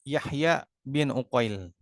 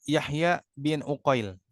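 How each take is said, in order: Both takes have the same delivery.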